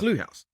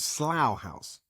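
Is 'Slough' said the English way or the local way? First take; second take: local; English. First: Slough is given the local-style pronunciation. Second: Slough is given an English-style pronunciation. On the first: This is how the town's residents say the name. The speaker calls it right. "now you're telling me it's" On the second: This is how an outsider would read the name. The speaker calls it wrong. "pronouncing it in my head in an English way"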